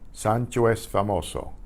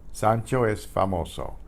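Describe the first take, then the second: No difference in how they are said.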